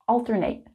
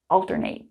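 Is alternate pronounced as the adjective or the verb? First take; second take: verb; verb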